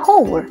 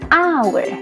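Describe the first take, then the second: First: The word starts with an h sound. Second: The word starts with a vowel sound. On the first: It is read as spelled, the local way. The speaker calls it wrong. "Kalau di bahasa Indonesia kan dibaca haur" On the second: It is read the English way. The speaker calls it right. "Bahasa Inggris bacaannya hour"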